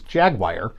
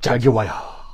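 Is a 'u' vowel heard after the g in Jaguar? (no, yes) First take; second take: no; yes. First: No 'u' vowel is heard after the g. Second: A 'u' vowel is heard after the g. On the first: This is how most people say it. "everybody else in the world says Jaguar" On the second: This is how the ads say it. "they only say Jaguar. Because there's a fucking U in it"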